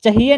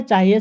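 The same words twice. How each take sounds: First: "चाहिए" with a short first a, cha-hi-ye; wrong form chahiye. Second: "चाहिए" with long aa, chaa-hi-ye; corrected form chaahiye. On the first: Teacher showing the wrong word, "चाहिए" as short cha-hi-ye. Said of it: "चाहिए नहीं होता है". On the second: Teacher giving the right word, "चाहिए" as chaa-hi-ye. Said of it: "चाहिए शब्द गलत है". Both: Shown as a demonstration.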